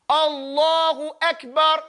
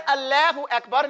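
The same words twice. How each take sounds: First: Slow "Allahu Akbar" with a dark "law"; correct heavy lam. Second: "Allahu Akbar" with a thin "al-laah" as in "lad"; quick "Allahu Akbar", front vowel in Allah; mock-wrong "Allahu Akbar", l too light; wrong light lam. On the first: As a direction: draw out a round, thick "Allah" in "Allahu Akbar". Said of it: "You don't say, Allahu Akbar". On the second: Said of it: "No, you sound crazy". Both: Shown as a demonstration.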